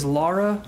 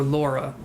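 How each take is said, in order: First: Lara with an "ah" in the first syllable; one pronunciation. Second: Laura with an "aw" in the first syllable; other pronunciation. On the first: Reader comparing two name versions, Lara with "ah". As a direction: say Lara like "LAH-ra". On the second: Reader comparing two name versions, Laura with "aw". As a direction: say Laura like "LAW-ra". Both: Shown as a demonstration. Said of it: "can be pronounced two different ways".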